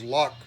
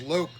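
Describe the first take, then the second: First: The vowel is short, rhyming with clock. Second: The vowel is long, rhyming with joke. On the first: The speaker calls it wrong. "everybody says lock programmer" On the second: The speaker calls it right. "the company themselves says loc, like locomotive"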